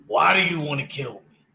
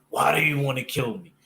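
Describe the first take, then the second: First: Lightly imitating Batman asking the Joker why he wants him dead. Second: Said in the usual way.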